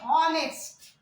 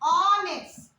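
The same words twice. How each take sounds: First: The word starts with an audible H sound. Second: The word starts with a vowel, no H sound. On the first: The speaker calls it wrong. "We don't say honest" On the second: The speaker calls it right. "here also H sound is silent"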